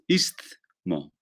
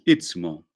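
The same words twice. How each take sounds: First: The S sound comes before the T sound. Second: The T sound comes before the S sound. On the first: The speaker calls it right. "lo correcto es decir ist istmo" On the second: The speaker calls it wrong. "Decimos istmo con T, después la S"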